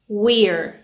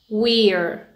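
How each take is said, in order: First: It is said as one contracted syllable. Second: It is said as one contracted syllable.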